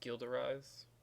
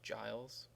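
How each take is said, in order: First: The name is said with a French pronunciation. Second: The name is said with an English pronunciation. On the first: "if you're French, you say" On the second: "if you're American or you speak American English, it's"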